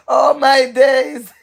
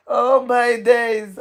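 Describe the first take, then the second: First: Slow, louder oh my days through laughter; laughing in disbelief; laughing exclamation. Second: Said in the usual way. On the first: Real, not acted. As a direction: drag it out while laughing. Reacting to a comment, laughing.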